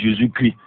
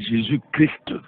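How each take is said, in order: First: The final consonants of Christ are silent. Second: The final consonants of Christ are pronounced. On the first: It sounds as if Jesus is shouting. The speaker calls it wrong. "Là il dit Jésus crie, Jésus ne crie pas" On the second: It names the anointed one. The speaker calls it right. "il faut bien prononcer Christ"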